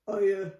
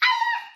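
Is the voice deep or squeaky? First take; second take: deep; squeaky. First: It is said in a very deep voice. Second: It is said in a high squeaky voice.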